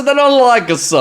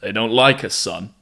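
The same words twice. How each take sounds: First: Put-on much higher, louder New York accent; exaggerated New York accent. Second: Put-on New York accent. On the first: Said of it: "I said". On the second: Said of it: "I did the New York accent again".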